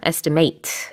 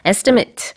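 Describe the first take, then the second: First: It is said with the verb pronunciation. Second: It is said with the noun pronunciation. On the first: It means to estimate something. "그땐 발음이 좀 달라지죠. estimate 이렇게 발음하는데요" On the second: It means an estimated figure. "여기서 명사로 쓰였다는 게 굉장히 중요하고요"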